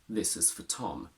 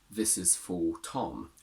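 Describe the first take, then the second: First: The word 'for' has a weak schwa vowel. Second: The word 'for' has a full, strong vowel. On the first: The speaker calls it right. "we say this is for Tom" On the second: The speaker calls it wrong. "We don't say this is for Tom"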